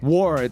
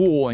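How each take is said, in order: First: It is said with an American accent. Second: It is said with a British accent.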